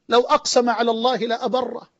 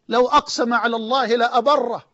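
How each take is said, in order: Both takes have the same delivery.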